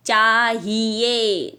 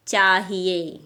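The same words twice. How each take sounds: First: "चाहिए" very slow, every vowel dragged long; wrong, overstretched. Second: "चाहिए" less stretched, ending on a clean e; clear e ending. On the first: Teacher showing the mistake, "चाहिए" dragged out. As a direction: stretch "चाहिए" out as chaa-hee-yay, loudly begun. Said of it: "गलत है". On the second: Teacher correcting pupils, "चाहिए" with clear e. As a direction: finish "चाहिए" on ए without a y glide. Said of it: "ए का sound आ रहा है". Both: Shown as a demonstration.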